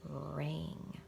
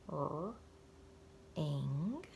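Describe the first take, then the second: First: The word is said quickly as one blended unit. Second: The word is said slowly in separate sounds. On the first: "Read it fast" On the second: "Let's read it slowly"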